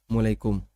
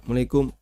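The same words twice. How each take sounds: The two takes are said the same way.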